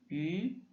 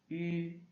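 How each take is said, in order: First: The pitch rises from mid to high. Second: The pitch stays high and level.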